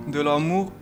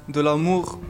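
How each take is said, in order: The two takes are said the same way.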